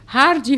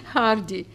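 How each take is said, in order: First: Hardy said much higher and louder; Hardy punched high and loud, falling; emphatic. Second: Laughing. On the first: Narrator naming Hardy again, high and loud. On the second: Narrator laughing at the name Hardy. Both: A narrator's reading.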